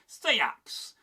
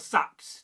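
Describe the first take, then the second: First: The vowel is longer and drawn out. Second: The vowel is shorter and lighter. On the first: This is the West Saxon form. "a slightly longer vowel, a bit more drawn out" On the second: This is the East Anglian form. "perhaps slightly lighter"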